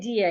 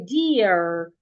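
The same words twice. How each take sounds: First: The final R sound is not pronounced. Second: The final R sound is clearly pronounced. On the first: It sounds British. "I wouldn't say deer again if I want to sound American" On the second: It sounds American. "The R will be heard"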